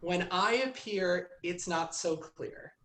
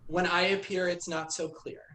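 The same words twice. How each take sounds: First: It is spoken dramatically, with heightened expression. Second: It is spoken plainly, without drama.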